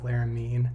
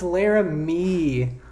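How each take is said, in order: First: Laramie mispronounced as "Laramean"; Laramie with added N. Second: Laramie ending on an open "mee"; loud, drawn-out Laramie, no N at the end; Laramie without final N. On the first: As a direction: put an N on the end of Laramie. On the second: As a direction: discover that Laramie ends in a long "ee". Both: Real, not acted. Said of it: "I was putting an N in there".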